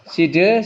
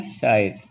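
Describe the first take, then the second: First: "Side" sounded out as see-duh, pitched up; read as spelled. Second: "side" with an eye vowel, one syllable; correct English reading. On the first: Teacher showing the class the spelling, "Side" as see-duh. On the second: Teacher giving the class the reading, "side" as syde. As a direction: say "side" as syde, silent final e. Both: Shown as a demonstration. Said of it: "bacanya side".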